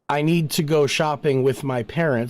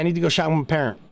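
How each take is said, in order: First: The words are said fully and evenly. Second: The words are clipped short and quick. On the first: "instead of saying" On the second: "It's very clipped. It's very short"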